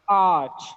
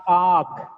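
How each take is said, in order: First: The word ends with a ch sound. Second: The word ends with a k sound. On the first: The speaker calls it right. "The last sound is ch" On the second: The speaker calls it wrong. "not arc"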